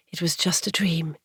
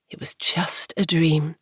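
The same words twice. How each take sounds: First: Said in the usual way. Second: Whispering to herself after the nightmare; whispered to herself. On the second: A narrator's reading. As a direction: whisper it to reassure yourself. Anna repeats to calm herself.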